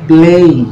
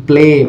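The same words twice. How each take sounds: First: "প্লেই" higher, with an audible "ই" after the e; "এই" glide ending. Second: "প্লে" ending on a plain e, no i-glide; pure "এ" ending. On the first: Retold or imitated. Teacher showing how many people say it, "এই" glide ending. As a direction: add an i-glide to the end of "প্লেই". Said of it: "কিন্তু অনেকে এটা প্লেই". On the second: Shown as a demonstration. Teacher showing the word for play, pure "এ" ending. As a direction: finish "প্লে" on one pure vowel. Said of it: "এ sound দিয়ে থাকে".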